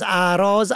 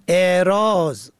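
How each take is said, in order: First: اعراض said aʿrāz, open a at the start; اعراض as a-rāz, plural form. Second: اعراض said eʿrāz, e at the start, slowly; اعراض as e-rāz, with kasra on alef. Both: Shown as a demonstration. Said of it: "و کسر الف".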